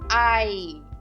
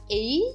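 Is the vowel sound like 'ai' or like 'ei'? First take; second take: ai; ei. First: The vowel sounds like 'ai'. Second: The vowel sounds like 'ei'. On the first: The speaker calls it right. "mas sim ai" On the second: The speaker calls it wrong. "nós não falamos ei"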